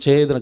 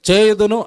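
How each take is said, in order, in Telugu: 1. మెల్లగా, సిగ్గుపడుతూ అంటారు. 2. గట్టిగా, దృఢంగా అంటారు. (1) "నెమ్మదిగా సిగ్గుపడుతూ" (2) "గట్టిగా చెప్పు"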